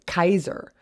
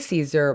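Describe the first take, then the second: First: The name starts with a hard K sound. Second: The name starts with a soft S sound. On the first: This is how it was said in ancient times. "his name then would have been pronounced Kaiser" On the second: This is the modern English way of saying it. "we use this the soft uh, S sound for the beginning of Caesar"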